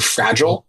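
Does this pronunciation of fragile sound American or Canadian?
American. It is said the American way. The speaker calls it right. "to fragile"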